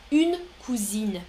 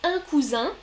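First: "une cousine" with both N sounds heard, falling end; feminine form. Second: "Un cousin" with nasal vowels and a rising end; masculine form. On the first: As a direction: say "cousine" as koo-zeen, closing on N. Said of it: "féminin". (« une cousine » au féminin, N sonores, ton descendant) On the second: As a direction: say "cousin" as koo-zan, lifted at the end. (« Un cousin » au masculin, finale nasale montante) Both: Shown as a demonstration.

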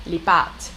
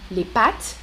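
First: Pâtes with a lengthened â, pitch lower; long â in pâtes. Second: Pattes with a brief, front a; short a in pattes. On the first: Teacher asking learners to hear long â. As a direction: hold the â in pâtes longer. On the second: Teacher asking learners to hear short a. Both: Shown as a demonstration. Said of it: "vous entendez?".

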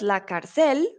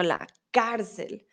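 First: "cárcel" wrongly stressed on the last syllable, car-CEL; wrong stress on final syllable. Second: "cárcel" stressed on the first syllable, CAR-cel; CAR-cel, stress up front in "cárcel"; correct first-syllable stress. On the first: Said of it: "Intentaste poner la tilde, pero entonces no es". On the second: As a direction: hit the "cár" in "cárcel", let the ending drop. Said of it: "la tilde va en la A". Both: Shown as a demonstration.

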